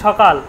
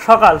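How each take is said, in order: Both takes have the same delivery.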